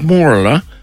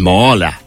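First: It is said posh, with an R sound. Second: It is said locally, without an R sound.

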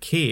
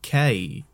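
First: The name ends plainly, with no extra glide. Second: The name ends with a slight glide inflection. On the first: The speaker calls it wrong. "it's not even K" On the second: The speaker calls it right. "it's like K. It's got a weird sort of inflection at the end because of the I"

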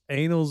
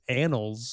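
First: The word sounds like 'anal' with a long vowel. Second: The word sounds like 'annals' with a short vowel. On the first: The speaker calls it wrong. "I don't think it's annals of time" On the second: The speaker calls it right. "I think it's annals of time"

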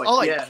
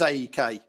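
First: The name is said as one word. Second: The name is said as separate letters. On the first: The speaker calls it right. "But apparently it's Ike" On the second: The speaker calls it wrong. "I always thought it was AEK"

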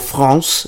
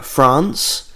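First: It is said with a French accent. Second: It is said with an English accent.

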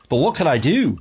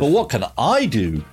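First: The stress is on the word do. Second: The stress is on the word I.

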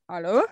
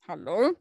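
First: It sounds like a puzzled, rising question. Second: It sounds like an offended hello.

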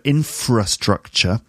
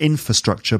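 First: The r sound in infra is clearly pronounced. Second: The r sound in infra is left out. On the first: The speaker calls it right. "there's a r sound in there" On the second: The speaker calls it wrong. "it's not infrastructure"

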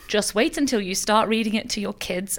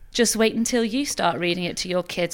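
First: It is read in a plain, neutral tone. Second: It is read in a dark, ominous tone.

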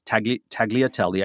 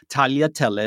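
First: The middle sound has a hard g. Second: The middle sound is a y, no hard g. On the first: The speaker calls it wrong. "I can't even say it" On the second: The speaker calls it right. "It has a y sound"

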